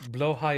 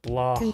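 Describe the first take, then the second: First: Swedish-style pronunciation, ending like 'high'. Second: English-style pronunciation, ending like 'hodge'. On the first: "is the correct Swedish name" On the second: "is what my English-speaking brain wants to pronounce it as"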